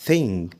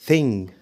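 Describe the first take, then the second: No difference in how they are said.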